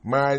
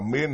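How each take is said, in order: First: The vowel is a gliding 'ai' sound. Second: The vowel is a short 'i' sound. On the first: "Chữ tâm tiếng Mỹ thì gọi là mai" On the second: "tôi có khi tôi đọc là min"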